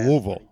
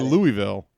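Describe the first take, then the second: First: The name is swallowed and compressed. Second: The name is said fully and clearly. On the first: The speaker calls it right. "You have to swallow it. You have to go like a" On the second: The speaker calls it wrong. "you are in fact mispronouncing Louisville"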